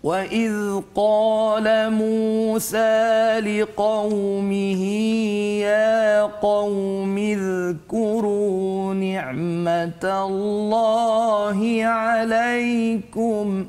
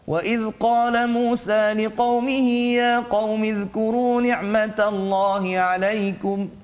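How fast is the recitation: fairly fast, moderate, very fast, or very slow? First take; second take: very slow; fairly fast. First: It is recited very slowly and melodiously. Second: It is recited at a fairly fast pace. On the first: "Itu contoh" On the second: "itu contoh ha, bacaan tadwir"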